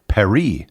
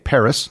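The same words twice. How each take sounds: First: The name is said with French sounds. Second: The name is said with English sounds. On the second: "I am speaking English. Hence, I say"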